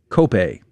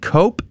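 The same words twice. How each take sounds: First: It is pronounced the Spanish way. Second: It is pronounced like the English word cope. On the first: The speaker calls it right. "properly it should be said cope" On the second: The speaker calls it wrong. "I was saying cope because that's what it looks like in English"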